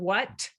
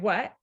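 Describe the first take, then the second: First: The final T sound is clearly pronounced. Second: The final T sound is left off. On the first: "in sort of the ideal type of idealized version of that word" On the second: "you've deleted the T"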